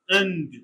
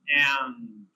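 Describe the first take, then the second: First: The vowel is short and reduced. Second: The vowel is full and unreduced. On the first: "Weak form" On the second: "Strong form"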